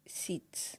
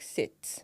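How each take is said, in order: First: Whispered "Sit" with a long ee, like seat; mispronounced sit. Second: "sit" with a short i, quietly; correct sit. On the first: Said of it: "they're like". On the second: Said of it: "instead of". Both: Shown as a demonstration.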